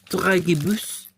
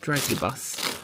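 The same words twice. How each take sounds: First: It is said with a French accent. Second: It is said with an English accent.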